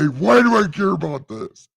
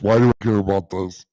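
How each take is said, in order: First: It is said in his normal voice. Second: It is said in a put-on God voice.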